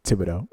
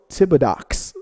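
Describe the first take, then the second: First: Thibodeau ending on a soft -doh; lower, quiet correction: Thibodeau; correct pronunciation. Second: Thibodox with a final x, slowly; joke pronunciation. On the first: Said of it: "I know it's Thibodeau". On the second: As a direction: say Thibodox, ending on a hard -ox. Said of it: "but I like to say Thibodox". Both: Shown as a demonstration.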